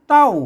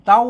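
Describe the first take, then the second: First: The syllable is said with the tho tone. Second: The syllable is said with the mid tone. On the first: "เสียงโทโทไทยโทเต้า" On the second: "เสียงสามัญเต้า"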